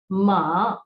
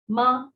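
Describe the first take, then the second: First: The pitch dips low and then rises. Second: The pitch stays high and level. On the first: The word means horse. "ma means horse" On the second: The word means mother. "that means mother"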